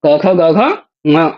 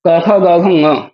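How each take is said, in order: First: क ख ग घ ङ very slowly, drawn out; even slower recitation. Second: क ख ग घ ङ spoken slowly, each letter apart; slow recitation. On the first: Teacher repeating the ka-series very slowly for students. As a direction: linger on each of क ख ग घ ङ. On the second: Teacher reciting the ka-series slowly for students. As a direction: spell out क ख ग घ ङ one by one. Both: Shown as a demonstration. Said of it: "कु शब्द से कवर्ग आ जाता है".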